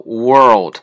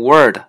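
First: "world" loud with both r and l sounded; correct pronunciation. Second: "world" said as "word", the l dropped; mispronunciation demo. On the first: Teacher modelling the word many learners mispronounce, careful demonstration. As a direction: give "world" its full oo, r, l and d. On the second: Teacher imitating how many learners mispronounce world, l-less demonstration. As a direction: drop the l so "world" becomes "word". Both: Shown as a demonstration. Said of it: "很多人发成word".

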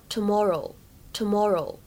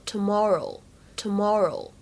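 First: "tomorrow" with a rounded British vowel and no r. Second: "tomorrow" with a relaxed mouth and an r sound; American tomorrow. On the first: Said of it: "英式呢，我们读作". (英式读法的"tomorrow") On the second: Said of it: "美式呢，会更加自然，口型会稍微放松一些". (美式读法的"tomorrow"，口型放松) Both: Shown as a demonstration.

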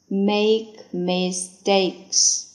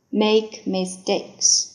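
First: Slow repeat. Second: Said in the usual way. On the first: Shown as a demonstration. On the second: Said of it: "make mistakes (repeated slower)".

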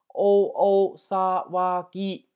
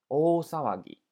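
First: お騒ぎ drawn out mora by mora, very slowly and louder; teacher's slow, emphatic model of お騒ぎ; slow sounding-out. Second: Said in the usual way. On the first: Shown as a demonstration. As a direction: sound out お騒ぎ slowly for learners, each sound held. Teacher sounds out new word slowly.

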